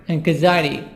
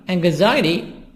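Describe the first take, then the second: Both takes have the same delivery.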